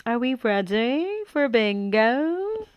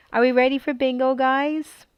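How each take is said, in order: First: Slow drawn-out caller voice; bingo caller. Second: Quick, bright call to the room; fast excited call. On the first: Pretend. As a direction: stretch it like a game-show caller. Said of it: "I was born to be a bingo caller". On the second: Real, not acted. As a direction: rattle it off eagerly. Starting a bingo game.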